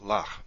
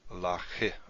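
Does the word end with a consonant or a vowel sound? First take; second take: consonant; vowel. First: The word ends on the consonant, no vowel after. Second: A short vowel sound follows the final consonant. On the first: The speaker calls it right. "So it's pronounced lach" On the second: The speaker calls it wrong. "not lache or something like that"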